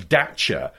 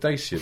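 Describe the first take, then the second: First: The name is pronounced the insisted non-British way. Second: The name is pronounced the usual British way. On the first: "now they're bloody-mindedly going, no, it's Dacia" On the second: "that's what British people seem to say"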